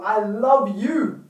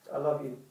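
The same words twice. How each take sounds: First: Slow, drawn-out, sincere declaration; heartfelt. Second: Low, soft, throwaway declaration; offhand, non-hearted. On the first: Showing how to tell a partner, slow and heartfelt. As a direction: put heart and soul into it, slowly. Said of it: "say with heart, body, mind, and soul". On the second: Showing the insincere way to tell a partner, low and offhand. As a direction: toss it off quietly, without feeling. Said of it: "Or you can just say". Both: Shown as a demonstration.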